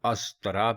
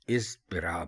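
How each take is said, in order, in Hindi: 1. यह शब्द 'a' स्वर से शुरू होता है। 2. यह शब्द 'i' स्वर से शुरू होता है। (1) "अलिफ के ऊपर ज़बर लगाकर ... गलत" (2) "अलिफ के नीचे ज़ेर लगाकर ... दुरुस्त"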